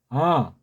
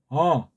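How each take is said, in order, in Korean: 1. 이 모음은 코 뒤쪽 높은 데서 울려요. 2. 이 모음은 코 뒤쪽 높은 데서 울려요.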